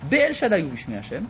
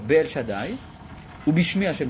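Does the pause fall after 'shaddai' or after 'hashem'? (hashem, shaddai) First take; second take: hashem; shaddai. First: A pause comes right after the word hashem. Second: A pause comes right after the word shaddai. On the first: God appeared by both names, but was not known to them. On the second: God appeared as El Shaddai, but was not known by the Name.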